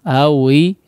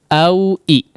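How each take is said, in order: First: The second vowel glides in smoothly without a catch. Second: The second vowel starts with a sharp throat catch. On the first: The speaker calls it wrong. "jangan sampai ha ha ha la awil awi nah, itu seperti uh, huruf mad yang diucapkan ya bukan hamzah" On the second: The speaker calls it right. "sehingga jelas tegas ya awalan huruf hamzah ketika terucap di awal"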